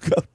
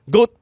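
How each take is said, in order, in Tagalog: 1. Ang patinig ay tunog na 'ow', tulad ng gout. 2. Ang patinig ay tunog na 'oh', tulad ng goat. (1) "hindi po gout" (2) "Goat po"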